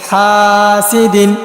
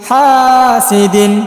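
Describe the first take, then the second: The two takes are said the same way.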